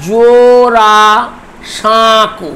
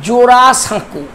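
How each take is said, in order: First: জোড়া সাঁকু drawn out as জো-ড়া-সাঁ-কু; syllable by syllable. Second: Said in the usual way. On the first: Shown as a demonstration. Teacher dividing the word for students, syllable by syllable. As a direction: stretch each syllable of জোড়া সাঁকু, pausing midway. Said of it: "চারটি দল আছে". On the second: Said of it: "যদি বলি".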